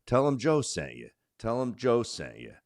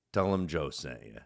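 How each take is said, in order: First: Mock radio host pitch, a touch higher; talk radio plug. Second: Said in the usual way. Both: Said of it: "they say on talk radio".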